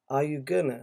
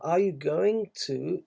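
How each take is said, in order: First: Going to is reduced to gonna. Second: Going to is said fully as two words. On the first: It sounds casual and everyday. "Many people pronounce it gonna" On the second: It sounds formal. "is very formal"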